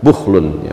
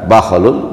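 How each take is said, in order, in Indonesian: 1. Vokal pertama adalah bunyi 'u'. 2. Vokal pertama adalah bunyi 'a'. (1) "bisa dibaca bukhlun" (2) "bisa dibaca bakhlun"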